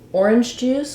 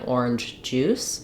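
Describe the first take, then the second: First: The stress falls on the word orange. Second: The stress falls on the word juice. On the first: It names the drink as a substance. "we stress on orange and juice is unstressed" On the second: It names juice that is orange in color. "then I would stress on juice"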